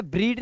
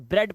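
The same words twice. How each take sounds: First: ब्रीड with a long "ee"; long "ee" in the middle of ब्रीड; wrong "ee" vowel. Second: ब्रेड with an "e" as in "bed"; correct "e" vowel. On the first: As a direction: misread it as ब्रीड, "breed". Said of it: "ब्रीड नहीं पढ़ रहे". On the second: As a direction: say ब्रेड as "bred", not "breed". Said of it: "की आवाज है ब्रेड". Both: Shown as a demonstration.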